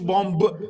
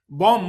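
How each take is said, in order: First: The word ends with an audible b sound. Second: The word ends without a b sound. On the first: The speaker calls it wrong. "You don't pronounce the B at the end" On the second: The speaker calls it right. "بوم مش بومب"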